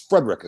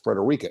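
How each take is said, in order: First: The name is pronounced the local way. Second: The name is pronounced just as spelled. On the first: The speaker calls it right. "It's Frederica Street" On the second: The speaker calls it wrong. "nobody says Frederica"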